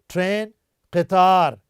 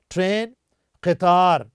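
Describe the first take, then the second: No difference in how they are said.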